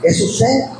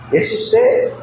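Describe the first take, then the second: First: Said in the usual way. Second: Usted pitched sharply up in a rising question; high rising question. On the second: Shown as a demonstration. Pastor repeating the question to the congregation, asking with a high rise. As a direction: ask Es usted with a big upward lift on usted.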